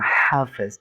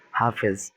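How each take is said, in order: First: "হাফেজ" with an exaggerated, forceful first h; wrong heavy h. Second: Said in the usual way. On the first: Shown as a demonstration. Teacher shows what nobody says, overdone h in "হাফেজ". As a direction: push hard on the "হা" of "হাফেজ". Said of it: "আমরা কেউ কিন্তু বলি না হাফেজ". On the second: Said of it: "আমরা বলি হা".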